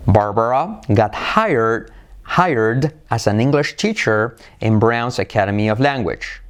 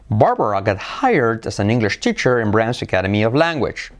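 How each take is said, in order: First: The sentence is spoken slowly and carefully. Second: The sentence is spoken at normal speed.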